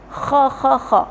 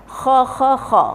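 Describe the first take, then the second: Both takes have the same delivery.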